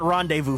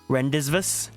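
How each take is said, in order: First: The word is said the usual way. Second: The word is sounded out as spelled. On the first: The speaker calls it right. "it was not rendezvous for me" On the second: The speaker calls it wrong. "I think I read it as like"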